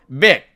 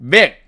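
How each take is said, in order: No difference in how they are said.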